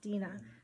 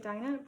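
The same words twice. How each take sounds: First: The name is said the original way. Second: The name is said the familiar English way. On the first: This is how the name is really pronounced. "the actual pronunciation is Dinah" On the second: This is how people usually say it. "We say Dinah"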